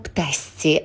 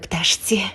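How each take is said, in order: First: The consonant before the last syllable sounds like s. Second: The consonant before the last syllable sounds like sh. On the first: The speaker calls it right. "А чому ми говоримо птасці" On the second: The speaker calls it wrong. "а не пташці"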